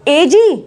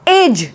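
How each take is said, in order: First: An extra vowel sound is added at the end. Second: The word ends without any extra vowel sound. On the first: The speaker calls it wrong. "No" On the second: The speaker calls it right. "एज बोलते हैं"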